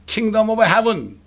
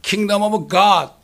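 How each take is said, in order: First: "Kingdom of Heaven" spelled out word by word, very slowly; slow deliberate English. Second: "Kingdom of God" spelled out word by word, very slowly; slow deliberate English. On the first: Preacher teaching the congregation the English phrase, very slow. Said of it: "킹제임스 성경 외에는 Kingdom of Heaven 하고요". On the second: Preacher contrasting it with Kingdom of Heaven, very slow. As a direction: set each word of "Kingdom of God" apart. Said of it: "이게 다른 거예요". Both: Shown as a demonstration.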